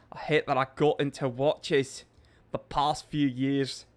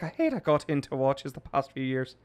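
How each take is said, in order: First: Put-on a bit of an Irish accent, measured pace; light Irish accent. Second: Second, broader put-on Irish accent; mock Irish voice, running straight through; Tom Mulrooney. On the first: Streamer reading Seamus's chat comment in a light Irish accent. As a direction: read it with a light Irish lilt. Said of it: "a little bit of an accent". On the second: Streamer rereading a chat comment as another Irishman, Irish accent. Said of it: "That was Tom Mulrooney".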